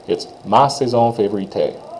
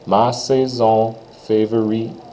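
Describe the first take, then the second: First: The phrase is said quickly. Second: The phrase is said slowly. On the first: "So quickly" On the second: "if I slow it down"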